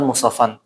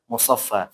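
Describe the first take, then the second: First: The word ends with an n sound. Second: The word ends on a long open vowel. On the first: The reading continues without stopping. "ini ini kan musaffan" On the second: The reader stops on this word. "Tapi kalau berhenti tetap musaf, musaffa"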